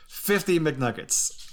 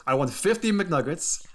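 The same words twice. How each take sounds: First: Put-on "fifty McNuggets" slowed right down, each word weighed, light Greek accent; slow emphatic Greek accent. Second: A hint of Giannis' Greek accent, higher; light Greek accent. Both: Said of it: "In his lovely Greek accent".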